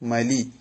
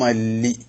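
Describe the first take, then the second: First: The l sound is short and single. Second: The l sound is held long and doubled. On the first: The doubling has been dropped. The speaker calls it wrong. "അല്ലെങ്കിൽ മലി എന്നാവൂലേ" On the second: The doubling is kept. The speaker calls it right. "ശദ്ദ് ചെയ്യുന്നുണ്ടല്ലോ"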